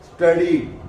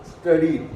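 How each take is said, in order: First: The S is half-said, blending straight into T. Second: The S is half-said, blending straight into T.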